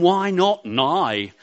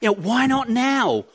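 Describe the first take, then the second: First: The last word is pronounced like 'nigh'. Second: The last word is pronounced like 'now'.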